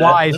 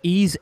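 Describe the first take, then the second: First: The name sounds like 'wise', with a w. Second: The name sounds like 'ease', without a w. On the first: The speaker calls it wrong. "or as some of you would pronounce it" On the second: The speaker calls it right. "It's pronounced Ease"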